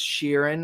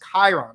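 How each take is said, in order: First: The name begins with a 'sh' sound. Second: The name begins with a 'k' sound. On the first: This is how the show says it. "in the show it's pronounced Sheeran" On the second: This is the original mythological name. "the actual mythological name that he got his name from is Chiron"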